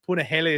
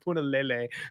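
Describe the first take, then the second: First: The third syllable begins with an h sound. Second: The third syllable begins with an l sound. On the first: The speaker calls it right. "force myself to say Punahele Soriano instead of" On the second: The speaker calls it wrong. "I always used to pronounce Puna's name Punalele"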